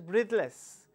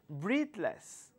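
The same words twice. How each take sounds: First: The two syllables run together without a break. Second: The two syllables are said as separate parts. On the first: The speaker calls it wrong. "You should not call it as breathless" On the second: The speaker calls it right. "dividing the word into two sounds"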